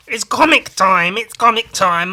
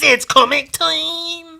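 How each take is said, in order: First: Louder, higher hype chant; chanted, hype up the segment like a show host; chanted, announcing comic time, shouted; chanted announcement. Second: Much higher, slow, stretched out; closing the chant, high and slow; drawn-out high finale. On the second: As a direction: stretch it like a cartoon announcer. Show segment opener. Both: Acted.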